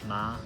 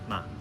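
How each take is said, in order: First: The pitch stays high and level throughout. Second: The syllable is light, short, and fading. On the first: "for the first tone we have ma" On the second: "the neutral tone ma, almost like it's fading out"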